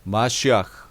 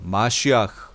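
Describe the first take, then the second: No difference in how they are said.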